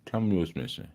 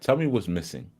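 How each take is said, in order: First: "Tell me what's missing" repeated softer, trailing off. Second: Said in the usual way. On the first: Shown as a demonstration. Teacher to the chat, softer repeated prompt. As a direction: nudge the chat again, quietly.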